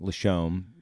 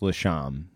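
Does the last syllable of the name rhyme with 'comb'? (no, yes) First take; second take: yes; no. First: The last syllable rhymes with comb. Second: The last syllable does not rhyme with comb. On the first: This is how it is said in other regions. "If you were in Cleveland, where I grew up, and in Albany, it'd be Lashomb" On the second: This is how it is said in one local area. "if you're in Ogdensburg, New York, it's Lashomb"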